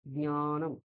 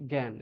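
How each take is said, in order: First: জ্ঞানম with nasal ny after the first consonant; careful gnya-nam for জ্ঞানম; nasalised pronunciation. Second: জ্ঞান as gyan or gaen, oral vowel; un-nasalised gy in জ্ঞান; wrong Bengali pronunciation. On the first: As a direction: send the start of জ্ঞানম through the nose, nya. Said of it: "নাক দিয়ে একটু উচ্চারণ". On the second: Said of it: "এই উচ্চারণটা ভুল". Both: Shown as a demonstration.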